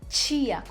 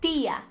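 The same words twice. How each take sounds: First: The t is hissed like a ch sound. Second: The t is a plain, crisp t sound. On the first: This is how it sounds in the speaker's Portuguese. "com esse chiado" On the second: This is how it sounds in Spanish. "sempre assim, sem chiado"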